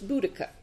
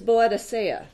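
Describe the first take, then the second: First: The name is said with three syllables. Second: The name is said with five syllables. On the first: The speaker calls it right. "They've since decided that it's Boudica" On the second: The speaker calls it wrong. "the way that I've always heard it mispronounced"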